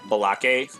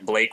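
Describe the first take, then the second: First: The name is pronounced in a distorted way. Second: The name is pronounced in the usual way. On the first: The speaker calls it wrong. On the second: The speaker calls it right.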